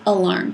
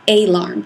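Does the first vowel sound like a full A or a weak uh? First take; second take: weak uh; full A. First: The first vowel is a weak uh sound. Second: The first vowel is a full A sound. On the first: The speaker calls it right. "we say alarm" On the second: The speaker calls it wrong. "we don't say alarm"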